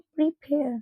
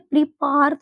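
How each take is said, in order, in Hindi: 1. दूसरा अक्षर 'pair' की तरह बोला जाता है। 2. दूसरा अक्षर 'par' की तरह बोला जाता है। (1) "हम इसको पढ़ेंगे प्रीपेयर" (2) "प्रीपार तो नहीं पढ़ सकते"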